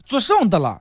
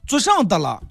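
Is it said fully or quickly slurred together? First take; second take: fully; fully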